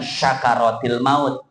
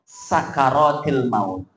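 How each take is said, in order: First: The first word starts with an sh sound. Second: The first word starts with an s sound. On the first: A thanksgiving celebration of death. The speaker calls it wrong. "bukan syakaratil maut" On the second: The intoxicating agony of death. The speaker calls it right. "Kalau sin sakaratil maut"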